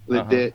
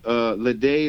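First: The name is given an English pronunciation. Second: The name is given a French pronunciation. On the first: "Ledet is the English term" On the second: "Ledet is the French term"

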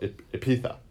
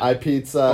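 First: It sounds like Ibiza with a p. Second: It sounds like the letter I plus pizza. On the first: The speaker calls it right. "you automatically know Epitha" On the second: The speaker calls it wrong. "people are going to say Ipizza and not... And like an iCarly"

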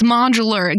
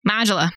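First: The final R sound is clearly pronounced. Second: The final R sound is dropped. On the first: The speaker calls it right. "had to look up the correct way to say modular" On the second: The speaker calls it wrong. "we are Mainers who can't pronounce R's"

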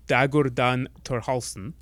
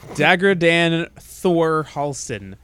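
First: The name is said with Icelandic pronunciation. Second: The name is said with English pronunciation.

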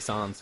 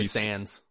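First: It is said with a French-style pronunciation. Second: It is said with a plain English pronunciation. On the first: This way sounds pretentious. "You want to be pretentious, you can say sans" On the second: This is the speaker's everyday way of saying it. "But I say sans"

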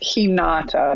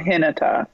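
First: The name is said without a North American accent. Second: The name is said with a North American accent. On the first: The speaker calls it right. "It's Hinata" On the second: The speaker calls it wrong. "that's my North American accent"

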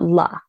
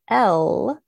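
First: The L sound is followed by an added vowel. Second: The L sound is said alone, without a vowel. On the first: The speaker calls it wrong. "It's not la" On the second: The speaker calls it right. "that's correct"

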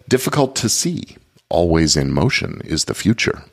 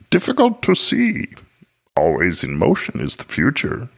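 First: It is said in his normal voice. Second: It is said in a put-on Yoda voice.

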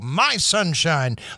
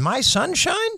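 First: The voice falls at the end. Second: The voice rises at the end. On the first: The speaker is making a finished statement. "like making the statement?" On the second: The speaker is asking a question. "Or was it more like a question?"

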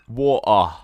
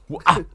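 First: It is said with a British accent. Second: It is said with a Nigerian-sounding accent.

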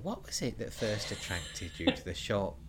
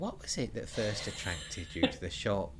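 First: It is said in a put-on old lady voice. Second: The same.

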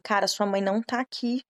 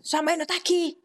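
First: It is said in a calm tone. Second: It is said in an angry tone.

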